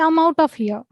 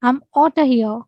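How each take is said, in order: First: Out of is said as two full words. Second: Out of is reduced to outta.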